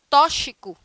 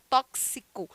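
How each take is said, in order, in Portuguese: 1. É dita com pronúncia portuguesa. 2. É dita com pronúncia espanhola. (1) "uma palavra em português" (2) "se eu fosse falar essa mesma palavra em espanhol"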